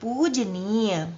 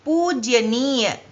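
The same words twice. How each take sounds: First: पूजनीय said slowly and softly as the right form; slow soft careful पूजनीय; correct pronunciation. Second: पूजनीय drawn out very slowly as the wrong form; slow demo of the wrong पूजनीय; पूजनीय said slowly as the mistake; wrong pronunciation. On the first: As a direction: quietly model the right पूजनीय. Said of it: "शब्द सही क्या है?". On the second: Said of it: "ये शब्द अशुद्ध हो गया". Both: Shown as a demonstration.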